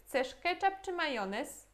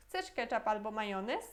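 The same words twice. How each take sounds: First: Slow, "ketchup" raised against "czy majonez"; either-or intonation. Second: No peak on "ketchup", question rise on "majonez"; open-question intonation. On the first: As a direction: stress "ketchup" high, then set "majonez" apart as the alternative. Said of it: "temos na entonação também". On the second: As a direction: run "ketchup albo majonez" together, lifting the end of "majonez". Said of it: "É diferente a entonação". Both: Shown as a demonstration.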